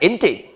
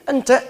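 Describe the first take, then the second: First: The vowels are shifted toward 'e'. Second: The vowels are said as open 'a'.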